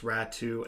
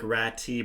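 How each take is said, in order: First: The name ends with an oo sound. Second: The name ends with a t sound. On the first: The speaker calls it right. "but it's pronounced Ratu" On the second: The speaker calls it wrong. "I know it looks like Rat-T"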